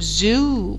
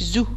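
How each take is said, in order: First: The vowel is drawn out long. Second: The vowel is short and clipped. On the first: The speaker calls it right. "بقول زو بطول فيها" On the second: The speaker calls it wrong. "ما بقولش زو"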